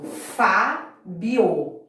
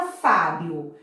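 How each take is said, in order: First: Fábio slowly, syllable by syllable: Fá-bi-o; teacher dividing Fábio as Fá-bi-o, drawn out; split into syllables. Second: Said in the usual way. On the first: Shown as a demonstration. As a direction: spell out Fábio in slow separate beats, as Fá-bi-o. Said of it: "Eu separo". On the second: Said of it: "como que eu separo?".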